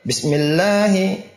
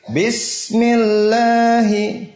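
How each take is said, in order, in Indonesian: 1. Bunyi s hanya disentuh sebentar. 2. Bunyi s mengalir terus dan dipanjangkan. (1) "Sinnya cuma dicolek. ... Salah" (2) "Dirokhawahkan, disempurnakan"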